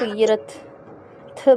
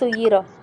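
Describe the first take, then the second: First: The final t is drawn out into th. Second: The final t is left out entirely. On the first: "बहुत ज़्यादा बढ़ा दें ... थ बन जाएगा" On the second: "बिल्कुल छोड़ ही देते हैं"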